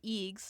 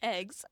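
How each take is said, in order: First: The vowel is a long ee sound. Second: The vowel is a short e sound. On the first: "Pop-Up says eegs" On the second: "when he says eggs"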